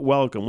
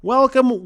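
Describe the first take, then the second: First: Said in the usual way. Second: High mock welcome. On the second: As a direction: welcome sung out high and loud like a showman. Repeated welcomes, sing-song opener.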